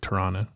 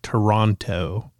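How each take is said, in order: First: The first syllable 'toe' is reduced and unemphasized. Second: The first syllable 'toe' is said fully and emphasized. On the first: This is how locals say it. "And we're like Toronto" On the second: This is how Americans say it. "you emphasize the toe because it's like Toronto"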